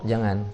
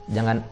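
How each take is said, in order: No difference in how they are said.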